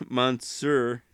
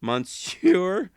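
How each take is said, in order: First: Monsieur said with a laugh, plain American sound. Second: Monsieur said high and loud with an overdone French sound, stress on the end; hammed-up French Monsieur, higher and louder; mock French Monsieur. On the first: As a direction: give up on the French, laugh through Monsieur. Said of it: "any French people out there, I'm sorry". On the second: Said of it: "they would laugh at me". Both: Shown as a demonstration.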